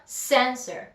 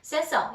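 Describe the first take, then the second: First: The word is said longer, English style. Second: The word is said short, Korean loanword style. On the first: The speaker calls it right. "조금만 더 길게 해서 sensor" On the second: The speaker calls it wrong. "센서 이게 아니라"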